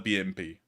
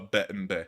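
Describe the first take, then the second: First: The letters are named with English letter names. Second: The letters are named with Russian letter names.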